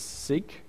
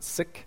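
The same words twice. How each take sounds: First: The word does not sound like 'sick'. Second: The word sounds like 'sick'. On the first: This is the speaker's own usual pronunciation. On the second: This is how the community itself says it.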